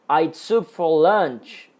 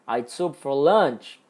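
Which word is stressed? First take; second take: other; lunch. First: The stress falls on another word. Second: The stress is on lunch.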